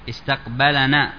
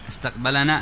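First: The 'l' carries an 'a' vowel before 'na'. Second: The 'l' has no vowel before 'na'. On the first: He met us; we are the ones met. "بالفتح" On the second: We met him; we are the ones doing it. "الناء فاعل"

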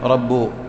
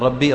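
First: The word ends without the final 'i' vowel. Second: The word ends with the final 'i' vowel. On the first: The speaker calls it wrong. "رب بدل ربي" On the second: The speaker calls it right. "بدل ربي"

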